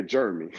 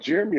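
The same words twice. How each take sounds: First: "Jeremy" squashed into two syllables, like "Jermy"; altered name pronunciation. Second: Said in the usual way. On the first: Retold or imitated. Baffled student checks which Jeremy, saying "Jeremy" as "Jermy". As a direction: say "Jeremy" as "JER-mee", questioning.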